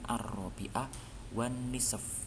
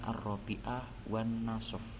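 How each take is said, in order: First: The last word has an i vowel. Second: The last word has an a vowel. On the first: The speaker calls it right. "Jadi ini bacanya" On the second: The speaker calls it wrong.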